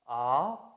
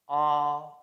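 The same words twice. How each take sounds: First: The pitch starts mid and rises. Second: The pitch stays high and level. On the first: "starts in the middle of your voice and rises" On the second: "It starts and ends high"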